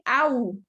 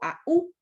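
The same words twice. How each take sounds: First: The two vowels blend into one syllable. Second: The two vowels are split into two syllables. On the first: "Allá dije au" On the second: "aquí digo au"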